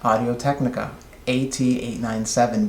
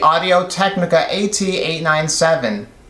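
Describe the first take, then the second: First: It is spoken in a quiet voice. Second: It is spoken in a loud voice.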